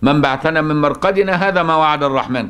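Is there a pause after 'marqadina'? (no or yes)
no. The phrase runs on without a pause after marqadina. All the words are spoken by the same group. The speaker calls it wrong. "لكن لو وصلت هيبقى كلامهم كله هو ده"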